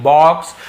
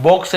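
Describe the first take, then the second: First: "बॉक्स" louder, open aw, rising end; emphatic aw in "बॉक्स"; right pronunciation. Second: "बॉक्स" said bokes, with a closed long o; teacher giving "बॉक्स" a wrong o vowel; wrong pronunciation. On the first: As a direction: correct to "बॉक्स" with rounded aw. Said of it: "ये चीज़ ध्यान देंगे". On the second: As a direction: show the mistake, long o in "बॉक्स". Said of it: "बॉक्स नहीं". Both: Shown as a demonstration.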